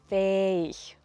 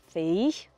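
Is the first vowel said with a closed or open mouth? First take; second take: open; closed. First: The first vowel is made with a more open mouth. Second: The first vowel is made with a less open mouth. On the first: The speaker calls it right. "sondern fähig" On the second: The speaker calls it wrong. "Nicht fähig"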